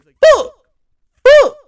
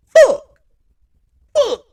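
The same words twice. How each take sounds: First: Screamed frustrated curse, very high and loud; furious yell. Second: Screamed curse, very high and loud; furious yell. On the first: Imitating Kyler storming off the field, furious yell. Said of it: "it was a pretty good impression". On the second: Imitating Kyler on his way to the locker room, furious yell. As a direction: yell out the frustration. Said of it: "He goes like this". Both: Retold or imitated.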